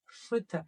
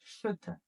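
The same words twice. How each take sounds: First: Schütte said once, loosely, close to s; a first quick try at Schütte; first take of Schütte. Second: Schütte with clear sh and rounded ü, quieter; repeated Schütte. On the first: Teacher's first model of the word for the class, loose German. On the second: Teacher repeating the word so learners catch it, clear German. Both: Shown as a demonstration. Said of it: "how we're going to read".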